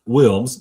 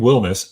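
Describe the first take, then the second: First: The surname is said with one syllable. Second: The surname is said with two syllables. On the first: The speaker calls it wrong. "not Wilms" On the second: The speaker calls it right. "So Braden Wilmus"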